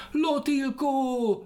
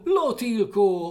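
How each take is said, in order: First: Very high, slow, loud call; calling after. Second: Louder, slow, high Lotilkó; shouting after. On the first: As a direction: stretch Lotilkó out high to the sky. (Lotilkó nagyon magasan, lassan elnyújtva kiáltva) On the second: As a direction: bellow Lotilkó after him. (Lotilkó hangosan, lassan, magasan kiáltva) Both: Acted. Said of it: "kiabált utána".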